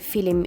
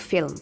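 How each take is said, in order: First: An extra vowel is heard between L and M. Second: No vowel is heard between L and M. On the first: "why she's saying film" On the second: "instead of film"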